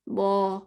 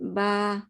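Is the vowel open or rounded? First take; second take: rounded; open. First: The vowel is said with rounded lips. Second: The vowel is said with an open mouth. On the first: The speaker calls it wrong. "नो ऐसे नहीं" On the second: The speaker calls it right. "ऐसे mouth open जैसे बा"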